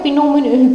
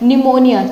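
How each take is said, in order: First: The word starts with a sounded p. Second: The word starts with an n sound. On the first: The speaker calls it wrong. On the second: The speaker calls it right.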